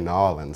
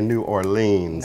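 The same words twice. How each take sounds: First: It is pronounced the way locals say it. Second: It is pronounced the way outsiders say it. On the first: This is how people from there say it. The speaker calls it right. "we say New Orleans down there" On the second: This is how people from elsewhere say it. The speaker calls it wrong. "we don't say New Orleans"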